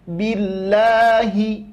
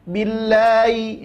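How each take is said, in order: First: The word is articulated clearly and distinctly. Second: The word is slurred, with an unclear vowel. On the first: The speaker calls it right. "jelaskan billahi" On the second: The speaker calls it wrong.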